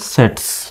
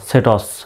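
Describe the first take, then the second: First: The final s and t are blended together. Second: The final s and t are said separately. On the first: The speaker calls it right. "আর যদি মিলিয়ে পড়েন এস টি তাহলে হবে" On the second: The speaker calls it wrong. "যদি আপনি আলাদাভাবে পড়েন তাহলে কেমন উচ্চারণটা হবে"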